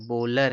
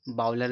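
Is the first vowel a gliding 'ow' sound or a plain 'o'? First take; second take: plain o; gliding ow. First: The first vowel is a plain, steady 'o' sound. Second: The first vowel glides like 'ow' in 'cow'. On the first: The speaker calls it right. "ये बॉलर है" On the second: The speaker calls it wrong. "बाउलर नहीं है"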